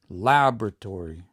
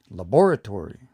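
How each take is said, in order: First: Laboratory with a loud, punched LAB; stress on LAB. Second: Laboratory as la-BOR-atory, BOR loud; stress on BOR. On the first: Teacher shows where the stress goes, LAB punched in laboratory. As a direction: hit the first syllable of laboratory hard. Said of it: "I would put the stress here". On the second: Teacher shows how some people say it, BOR stressed in laboratory. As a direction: punch the second syllable of laboratory. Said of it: "But some people say". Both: Shown as a demonstration.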